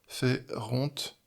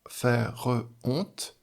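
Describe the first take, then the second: First: The words blend into two syllables. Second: The words are kept apart as three syllables. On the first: The speaker calls it wrong. "ça pourrait faire deux" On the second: The speaker calls it right. "Il y a donc trois syllabes"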